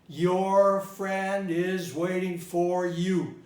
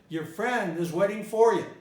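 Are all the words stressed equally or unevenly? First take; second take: equally; unevenly. First: Every word gets equal stress. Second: Only some words are stressed, others reduced. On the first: The speaker calls it wrong. "You stress all the words equally" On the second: The speaker calls it right. "But I should have said"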